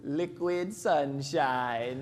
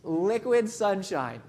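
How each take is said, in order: First: "liquid sunshine" drawn out very slow, pitch sinking. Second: "Liquid sunshine" repeated slowly, savoring it; slow echoed phrase. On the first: Retold or imitated. Cab driver savors "liquid sunshine" to the grumpy tourist, drawn out slow. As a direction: stretch "liquid sunshine" out lazily. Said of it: "and he goes". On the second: Real, not acted. Speaker repeats the cabbie's line to the audience, slow and savoring. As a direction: echo "Liquid sunshine" slowly, letting it land.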